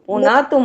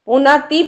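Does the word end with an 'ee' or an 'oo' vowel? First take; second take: oo; ee. First: The word ends with an 'oo' vowel. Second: The word ends with an 'ee' vowel. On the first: The speaker calls it right. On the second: The speaker calls it wrong. "પુનાતી પણ નહીં"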